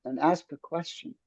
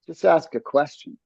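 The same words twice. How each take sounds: First: Calm soft voice. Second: Said in the usual way. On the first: Shown as a demonstration. Coach showing how to ask calmly. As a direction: soothe the tension out of it. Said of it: "keep your voice calm".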